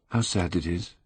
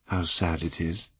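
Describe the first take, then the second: First: Quiet, lingering repeat; soft sorrowful echo; sad murmur. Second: Softly murmured, almost to himself; hushed wistful murmur; sad murmur. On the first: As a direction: let the sadness sink in, softly. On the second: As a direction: murmur it sadly at the portrait. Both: A narrator's reading. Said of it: "murmured Dorian Gray".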